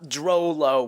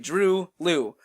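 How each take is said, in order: First: The first syllable does not rhyme with 'true'. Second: The first syllable rhymes with 'true'. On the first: The speaker calls it wrong. "not Drolo or anything like that" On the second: The speaker calls it right. "it is pronounced that way, Drew Liu, like the word true"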